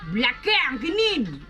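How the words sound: It is said in a native Kedah accent.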